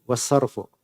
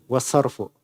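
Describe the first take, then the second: Both takes have the same delivery.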